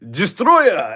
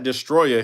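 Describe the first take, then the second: First: The name is drawn out like a wrestling announcer. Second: The name is said in a plain, ordinary way.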